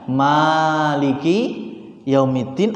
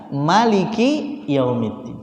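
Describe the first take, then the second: First: The vowel after the m is drawn out long. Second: The vowel after the m is kept short. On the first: God is the owner of the Last Day. "dengan dipanjangkan mimnya" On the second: God is the king who rules the Last Day. "dipendekkan mimnya"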